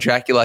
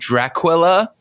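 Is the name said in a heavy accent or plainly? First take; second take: plainly; heavy accent. First: The name is said in a plain, ordinary way. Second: The name is said in an exaggerated foreign accent. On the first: "he doesn't call Dracula Dracula" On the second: "because of his ridiculous accent"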